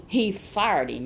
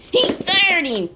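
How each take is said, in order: First: Said in the usual way. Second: Much higher and louder, slow; emphatic outcry. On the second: A narrator's reading. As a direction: hit the firing hard, slowly. Dramatic punchline to child.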